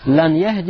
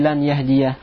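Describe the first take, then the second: First: The verb ends without a final 'a' vowel. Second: The verb ends with a pronounced final 'a' vowel. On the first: The speaker calls it wrong. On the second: The speaker calls it right.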